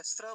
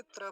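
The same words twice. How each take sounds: First: स्र as sra, without t; contrasting cluster. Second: त्र as tra, with t; contrasting cluster. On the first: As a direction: start स्र on a hissed s. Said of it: "स्र बना हुआ है". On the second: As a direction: start त्र on a dental t. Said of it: "ये त्र बना हुआ है". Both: Shown as a demonstration.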